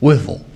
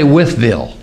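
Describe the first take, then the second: First: The name is said in a mushy, slurred way. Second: The name is said crisply and fully. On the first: The speaker calls it right. "You got a mouth of mush" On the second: The speaker calls it wrong. "you don't say Wytheville"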